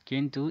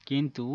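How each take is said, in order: No difference in how they are said.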